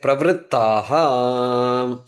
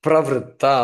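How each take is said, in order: First: The word ends with an added breathy 'ha' sound. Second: The word ends on a plain final vowel. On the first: The speaker calls it right. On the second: The speaker calls it wrong.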